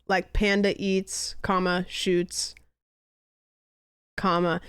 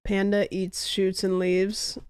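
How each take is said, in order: First: "panda eats" then a pause, "shoots" then a pause, said slowly; pauses at the commas. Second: Said in the usual way. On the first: Shown as a demonstration. Reading the commas aloud to friends, slow pauses at each.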